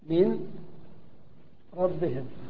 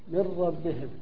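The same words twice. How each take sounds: First: The n is pronounced separately before the r. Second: The n merges into a doubled r sound.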